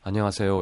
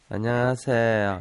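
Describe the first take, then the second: First: It sounds like an older person's greeting. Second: It sounds like a young person's greeting.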